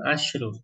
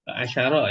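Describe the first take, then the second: First: The sh sound is followed by no vowel. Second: The sh sound is followed by an a vowel. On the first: It counts feminine things. "untuk muannas pengucapan asyarnya itu sukun" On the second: It counts masculine things. "Kalau bagi mudzakkar eh, shinnya fathah"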